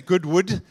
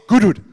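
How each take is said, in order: First: The name is said slowly and carefully. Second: The name is said fast, run together.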